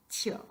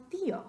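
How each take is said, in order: First: "tío" squashed into one syllable, "tyo". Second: "tío" in two syllables, stressed on the í. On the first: Teacher shows what we don't say, "tío" as one syllable. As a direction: run the i of "tío" straight into the o. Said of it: "No queremos decir". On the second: Teacher gives the word for uncle, "tío" in two syllables. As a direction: break "tío" apart as TEE-o, higher on the í. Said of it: "sino tío". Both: Shown as a demonstration.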